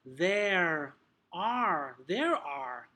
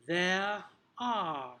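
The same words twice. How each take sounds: First: American "there are", strong r on both words; drawn-out, emphatic American r in "there are"; American accent. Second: British "there are", no r at the end of "are"; British accent. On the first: Teacher contrasting accents for trainees, American accent. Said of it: "If it's gonna be more American". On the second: Teacher modelling phonetics for trainees, British accent. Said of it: "your accent, depending on where you're teaching". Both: Shown as a demonstration.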